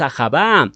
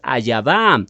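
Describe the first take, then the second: First: A harsh h sound comes between the vowels. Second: A y sound comes between the vowels. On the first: "No es Ajabá" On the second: "tendrías que añadirle la letra Yod"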